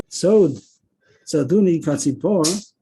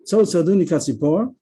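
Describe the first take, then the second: First: "Sod" set apart, then "Tzaduni Katzipor"; verse read with a pause. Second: "Sod Tzaduni Katzipor" in one run with a rise on "Sod"; verse phrased through. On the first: Teacher reading the verse to show its stops, with a pause after "Sod". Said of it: "you have the stop on the". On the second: Teacher rereading the verse to show the comma on "Katzipor", phrased through. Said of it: "comma on the word Katzipor". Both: Shown as a demonstration.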